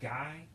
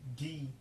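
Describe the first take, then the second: First: It sounds like the English word 'guy'. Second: It is said as one syllable, not 'guy'. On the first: The speaker calls it wrong. "here it might be pronounced guy" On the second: The speaker calls it right. "but the actual word is gi"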